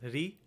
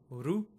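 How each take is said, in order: First: The vowel is said with an i sound. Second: The vowel is said with a u sound. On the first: "if you wish to use North Indian pronunciation, you're more than welcome to do so. It would be pronounced as ri" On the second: "If you're from South India, if you speak Gujarati, Marathi, or Odia, you may hear this pronunciation"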